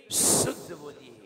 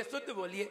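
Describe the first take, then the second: First: शुद्ध बोलिए with a long, forceful hissing श, then lower; whistled श. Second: Softer शुद्ध बोलिए with a short, light sibilant; weak श, wrong way. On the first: Shown as a demonstration. Teacher corrects the student, strong whistling श in शुद्ध. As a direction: lean hard on the sh of शुद्ध. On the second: Retold or imitated. Teacher imitates the student's mistake, soft unwhistled श in शुद्ध. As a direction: barely sound the श in शुद्ध, no whistle. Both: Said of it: "अरे शुद्ध नहीं".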